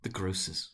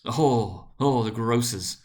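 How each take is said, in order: First: Said in the usual way. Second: Louder, savouring each oh; relishing the grocers' shop, exclaiming aloud; delighted exclamation. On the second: A narrator's reading. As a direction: gush over the grocers with delight. Narrator exclaims over the grocers.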